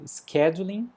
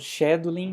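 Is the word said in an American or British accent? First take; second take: American; British. First: It is said with an American pronunciation. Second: It is said with a British pronunciation. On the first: "na pronúncia americana" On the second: "na pronúncia britânica"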